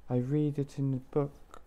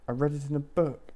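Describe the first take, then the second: First: "read" said like "reed"; misread tense. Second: "read" said like "red"; corrected past tense. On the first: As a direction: say "read" to rhyme with "need". Misreads "read", then corrects it. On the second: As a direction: say "read" to rhyme with "bed", a bit louder. Corrected retake of the line. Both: Acted.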